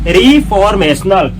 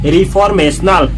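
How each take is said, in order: First: The first syllable sounds like 'ree'. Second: The same.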